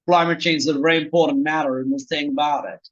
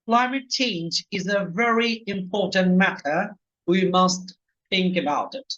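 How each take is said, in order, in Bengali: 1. এটি আমেরিকান ইংরেজি উচ্চারণে বলা হয়েছে। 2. এটি স্ট্যান্ডার্ড রিসিভড প্রোনানসিয়েশন (RP) উচ্চারণে বলা হয়েছে। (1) "আমেরিকানরা বললে বলতো" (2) "আমরা আরপি, রিসিভ প্রনাউন্সিয়েশনটা শিখবো, যেটা প্রমিত ইংরেজি"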